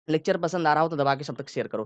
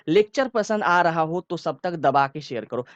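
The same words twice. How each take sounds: First: Quick, rushed delivery; said fast. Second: Slow, deliberate and firm; forceful but relaxed. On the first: Teacher demonstrating speech said fast. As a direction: rattle it off quickly. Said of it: "मैंने थोड़ा तेज ही बोला". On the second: Teacher demonstrating a forceful but unhurried line. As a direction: lean on it with force but take your time. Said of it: "जोर से तो बोला, लेकिन मैं क्या आराम आराम से बोल रहा था". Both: Shown as a demonstration.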